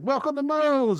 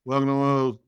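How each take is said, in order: First: It sounds warm and genuinely welcoming. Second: It sounds flat and unenthusiastic.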